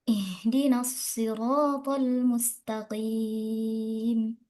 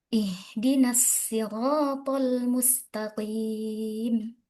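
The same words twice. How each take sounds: First: Sirat begins with an emphatic s sound. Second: Sirat begins with a plain s sound. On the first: "dengan shad" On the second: "membaca as-sirat dengan sin"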